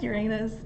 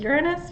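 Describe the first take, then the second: First: Uranus as yur-AY-nus; Uranus sounding like "your anus"; childhood pronunciation. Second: Uranus as YUR-uh-nus; Uranus with a short, weak middle syllable; preferred pronunciation. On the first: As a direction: softly stress a long AY in Uranus. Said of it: "call it Uranus". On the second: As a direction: softly stress the first syllable of Uranus. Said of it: "I'm, I'm sticking with Uranus". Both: Retold or imitated.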